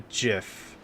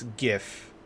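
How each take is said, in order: First: The word begins with a soft G sound. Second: The word begins with a hard G sound. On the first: The speaker calls it wrong. "It's not a GIF" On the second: The speaker calls it right. "it's a hard G. It's GIF"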